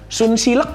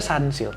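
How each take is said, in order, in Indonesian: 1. Dibaca huruf per huruf sesuai ejaannya. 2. Diucapkan dengan pengucapan Inggris.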